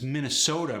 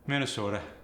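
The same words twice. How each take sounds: First: The O sound is standard and drawn out. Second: The O sound is short and clipped.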